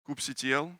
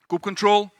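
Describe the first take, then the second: First: The ending is not pronounced as control. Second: The ending is pronounced as the word control. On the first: "How many of you call it kubectl?" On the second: "my pronunciation of kube control"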